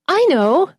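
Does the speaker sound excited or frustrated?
excited. It sounds eager, with the stress on I. I am the one who knows the answer. "raise your hand and you go, oh"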